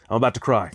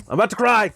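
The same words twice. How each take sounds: First: Said in the usual way. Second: Higher, a touch louder, playful mock emotion; hamming up being moved to tears; mock tearful exclaim. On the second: Real, not acted. Touched by a friend's gift, he exclaims in mock tears.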